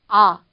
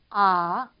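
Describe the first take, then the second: First: The pitch falls from start to end. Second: The pitch dips low and then rises. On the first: "일성 같은 경우는 떨어지는 음이에요" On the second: "밑으로 쳐졌다가 다시 올라가는 음이에요"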